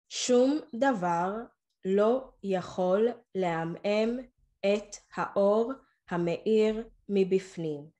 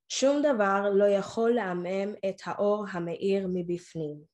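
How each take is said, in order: First: It is read a little more slowly. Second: It is read at normal speed.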